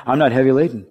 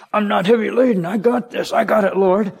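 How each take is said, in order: First: Said in the usual way. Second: Much higher, dismissive brush-off of a voice; proud believer brushing off Jesus, voiced higher and mocking; mock stubborn self-reliant believer. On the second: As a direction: wave off help like a proud know-it-all.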